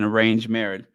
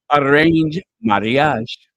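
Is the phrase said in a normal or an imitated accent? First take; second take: normal; imitated. First: It is said in the speaker's ordinary accent. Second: It is said in an imitated, unusual accent.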